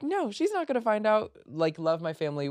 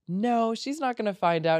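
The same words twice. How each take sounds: First: High, light brush-off; breezy denial. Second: High, breezy dismissal; breezy denial. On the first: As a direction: wave away the worry. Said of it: "and I was like". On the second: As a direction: brush the worry off lightly. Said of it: "And I'm like". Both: Retold or imitated.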